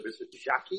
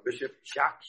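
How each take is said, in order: First: "Jacques" said the way they say it in the Congo; local pronunciation. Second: Said in the usual way. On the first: Shown as a demonstration. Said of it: "as they call him over there". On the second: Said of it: "or as they call him over there".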